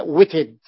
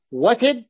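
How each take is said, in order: First: وتد as witid, opening on "wi"; dialect variant. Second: وتد as watid, opening on "wa"; standard form. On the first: Teacher shows students the variant form, witid. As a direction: say وتد with i in both syllables. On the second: Teacher sets the standard form before its variant, watid. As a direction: say وتد with an a in the first syllable. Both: Shown as a demonstration. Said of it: "يعني لغة في وتد أيضًا".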